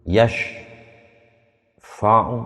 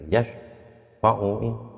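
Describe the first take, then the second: First: The held sound makes a break inside the word. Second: The word flows on smoothly without any break. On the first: The speaker calls it wrong. "kedawan. Karena bukan sakta" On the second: The speaker calls it right. "Harusnya ya yashfa'uin kan terusnya begitu"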